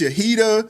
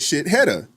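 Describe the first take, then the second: First: The name begins with the sound 'sha'. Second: The name begins with the sound 'shit'. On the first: It is how the owner says her name. The speaker calls it right. "No, it's it's Shahida" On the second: It is read letter by letter as spelled. The speaker calls it wrong. "he said shit Hedda, because that's how it's spelled"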